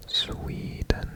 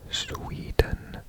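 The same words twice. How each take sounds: The two takes are said the same way.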